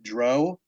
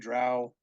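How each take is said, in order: First: The vowel does not rhyme with 'brow'. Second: The vowel rhymes with 'brow'. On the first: "pronounce it Dro" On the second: "B R O W brow, D R O W drow"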